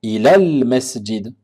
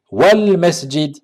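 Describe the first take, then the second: First: Ilal masjid with the hamza pronounced as if starting fresh; hamza read alone. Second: "Wal masjid" with the hamza silent, linked smoothly; slow, linked "Wal masjid"; liaison wal masjid. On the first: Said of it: "le mot al masjid". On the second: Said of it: "et on dira wal masjid". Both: Shown as a demonstration.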